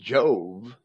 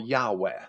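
First: It begins with a J sound, English style. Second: It begins with a Y sound, Latin style. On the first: The speaker calls it wrong. "The way we pronounce it is purely an English pronunciation" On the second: The speaker calls it right. "Jove in Latin would be pronounced Yahweh"

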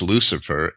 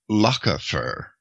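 First: The c is pronounced as an s sound. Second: The c is pronounced as a k sound. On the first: This is the later, softened pronunciation. The speaker calls it wrong. "Lucifer wouldn't be pronounced Lucifer" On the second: This is the original old Roman pronunciation. The speaker calls it right. "The sea was originally hard in old Roman Latin"

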